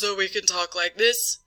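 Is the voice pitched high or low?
low. The voice is pitched low and relaxed. "to relax the vocal folds so we can talk like this"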